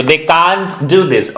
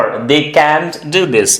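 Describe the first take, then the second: First: CAN'T said as "kaant" with long "ah"; open-vowel pronunciation. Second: CAN'T said as "kant", rhyming with "ant"; front-vowel pronunciation. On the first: Teacher offers learners the first option, open-vowel "can't". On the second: Teacher offers learners the second option, front-vowel "can't". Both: Shown as a demonstration. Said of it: "can't बोले, can't बोलिए please".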